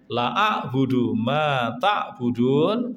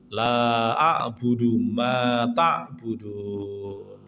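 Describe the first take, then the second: First: The vowel in the first word is cut short. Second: The vowel in the first word is drawn out long. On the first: It affirms truly worshipping what the others worship. The speaker calls it wrong. "nek diwaca cendak" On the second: It denies worshipping what the others worship. The speaker calls it right. "Lah niku diwaca panjang"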